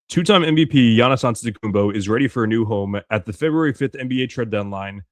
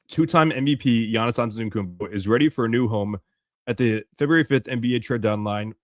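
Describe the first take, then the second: First: It is read at a faster pace. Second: It is read at a slower pace.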